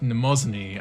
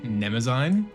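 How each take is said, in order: First: The name ends with an 'oo-nee' sound. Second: The name ends with an 'een' sound. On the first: This is how the game character said it. "So I'm like, Namazuni" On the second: This is how the speaker always heard it. "I've just always heard that as like Nemazine"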